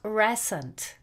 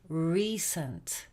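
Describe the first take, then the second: First: The first vowel is not a long 'ee' sound. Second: The first vowel is a long 'ee' sound. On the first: The speaker calls it wrong. "It's not recent" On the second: The speaker calls it right. "That first vowel sound is E"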